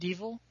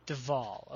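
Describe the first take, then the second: First: It is said like the ordinary word devil. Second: It is said with a full second vowel, deh-val. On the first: The speaker calls it wrong. "Am I mispronouncing it? Is it Devil?" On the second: The speaker calls it right. "I've heard Kevin pronounce it Deval"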